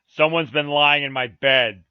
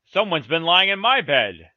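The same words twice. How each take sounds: First: Loud, slow huge bear; great rough voice. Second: Loud middle-sized bear complaint; lightly voiced middle bear, loud; middle bear's middle voice. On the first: Huge bear finds his bed disturbed, loud rough voice. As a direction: boom it out slowly as a big rough bear. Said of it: "in his great rough voice". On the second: Middle bear finds his bed disturbed, middle voice. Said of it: "in his middle voice". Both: A narrator's reading.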